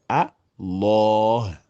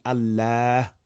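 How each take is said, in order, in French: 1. Le son l est lourd et emphatique. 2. Le son l est léger, non emphatique. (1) "en emphatisant le lam" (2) "comme Bismillah"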